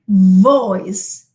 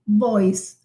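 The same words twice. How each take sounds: First: The first sound is a voiced fricative with friction. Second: The first sound is a lip stop without friction. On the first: The speaker calls it right. "I say voice" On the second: The speaker calls it wrong. "I do not say voice"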